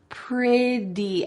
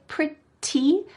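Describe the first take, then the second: First: The middle consonant is a soft D sound. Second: The middle consonant is a crisp T sound. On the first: "with a D sound ... that's how she says it" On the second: "She doesn't say pretty, even though there's a T"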